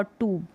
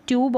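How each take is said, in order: First: ट्यूब as "toob", no glide; oo pronunciation. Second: ट्यूब as "tyoob"; yoo pronunciation. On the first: Teacher recapping both ways, ट्यूब with only "oo". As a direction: drop the y-sound from ट्यूब. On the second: Teacher recapping both ways, ट्यूब with "yoo". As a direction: keep the y-glide in ट्यूब. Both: Shown as a demonstration. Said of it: "यू का उच्चारण भी और ऊ का उच्चारण".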